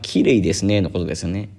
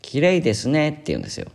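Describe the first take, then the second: First: It has the standard Japanese pitch pattern. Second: It has a foreign learner's unusual pitch pattern.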